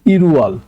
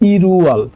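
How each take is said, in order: First: The l links into the next syllable. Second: The same.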